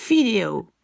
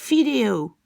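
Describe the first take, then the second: First: It starts with an f-like sound. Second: It starts with an f-like sound.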